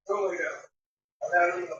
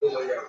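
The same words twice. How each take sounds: First: Slow, soft command to the dog; gently but firmly send her to bed; ordering the dog to lie down, slow and soft. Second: Soft command. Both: Real, not acted. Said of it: "No, no, no, no".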